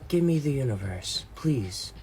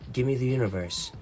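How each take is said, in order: First: It is asked in a polite tone. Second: It is asked in a demanding tone.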